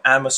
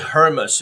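First: The word begins without any H sound. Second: The word begins with an audible H sound. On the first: The speaker calls it right. "H 是不发音的" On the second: The speaker calls it wrong. "我们不要念Hermes 哦"

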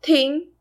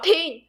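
First: It is said flatly, with stiff careful articulation. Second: It is said forcefully, with emotion and an explosive burst.

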